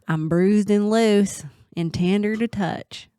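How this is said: It is said in a put-on Southern accent.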